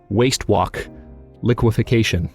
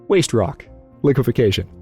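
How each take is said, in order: First: The middle word starts with a W sound. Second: The middle word starts with an R sound. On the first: The speaker calls it wrong. "I keep tripping and saying waste walk liquefaction" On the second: The speaker calls it right. "it should be an R, it shouldn't be a W"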